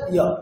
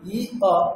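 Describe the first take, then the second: First: The two vowels glide together into one syllable. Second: The two vowels are said apart with a break. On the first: "একসাথে বললে ইয়" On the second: "এটা আলাদা করে বললে এরকম হচ্ছে"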